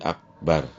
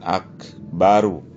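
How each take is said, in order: First: The word ends sharply on the final consonant. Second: The word ends with a short final vowel. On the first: The speaker calls it right. "karena berhenti maka dijazamkan jadi akbar" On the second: The speaker calls it wrong. "jangan bukan akbaru"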